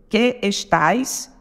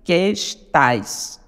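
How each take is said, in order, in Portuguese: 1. As duas vogais são pronunciadas como sílabas separadas. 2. As duas vogais fundem-se numa única sílaba.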